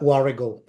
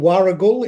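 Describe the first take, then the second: First: It is said in a local spoken form. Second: It is sounded out following the spelling. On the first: This is how people actually say the name. "but it's pronounced uh, Warragul" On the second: This is how the name is written. "it's written Warragul"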